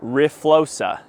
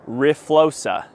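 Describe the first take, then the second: First: The name sounds like 'ree-flosa'. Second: The name sounds like 'ree-flosa'.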